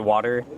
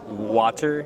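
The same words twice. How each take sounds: First: American accent, with the T sounding like D. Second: British accent, with a clear T sound. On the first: "I say water. ... when I pronounce it a T, it sounds like a D" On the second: "So British people say water"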